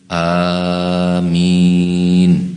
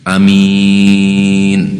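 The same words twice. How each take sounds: First: The first vowel is drawn out long. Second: The first vowel is kept short. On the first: "dengan tambahan alif antara fa fi'il dengan ain fi'il" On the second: "al-qasru, pendek"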